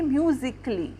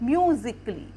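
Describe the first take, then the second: Both takes have the same delivery.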